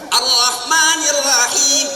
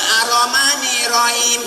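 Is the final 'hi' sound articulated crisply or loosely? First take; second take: crisply; loosely. First: The final 'hi' is articulated crisply and precisely. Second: The letters are articulated loosely and imprecisely. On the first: The speaker calls it right. "ha kasrohi, ya sukun hi, bentet hi, baru ketemu tuh makhraj" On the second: The speaker calls it wrong. "Nggak bisa ... nggak pas itu"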